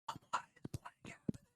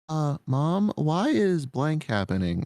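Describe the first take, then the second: First: It is whispered without any voice. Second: It is spoken aloud in a low voice.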